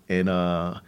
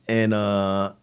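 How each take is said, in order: Both takes have the same delivery.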